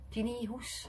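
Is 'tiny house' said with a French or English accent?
French. It is said with a French accent. The listener could not understand it. "omdat ze de uitspraak een beetje verfransen"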